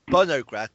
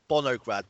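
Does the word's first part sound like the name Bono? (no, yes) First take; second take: no; yes. First: The first part does not sound like Bono. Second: The first part sounds like the name Bono. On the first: This is the real event name. The speaker calls it right. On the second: It jokingly suggests an event fronted by a rock band. The speaker calls it wrong.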